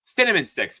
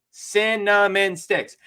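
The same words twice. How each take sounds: First: Said in the usual way. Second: Drawn out, each word weighed; slow emphatic. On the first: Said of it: "I got fucking cinnamon sticks". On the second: Shown as a demonstration. Telling friends his snack, slow emphasis. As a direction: savor Cinnamon sticks slowly. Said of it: "Cinnamon sticks, folks".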